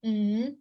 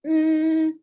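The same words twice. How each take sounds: First: "mm" hummed rising; second tone. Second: "Mm" hummed high, level and loud; first tone. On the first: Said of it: "that's second". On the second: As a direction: hold "Mm" up on one steady note. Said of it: "that's first tone". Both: Shown as a demonstration.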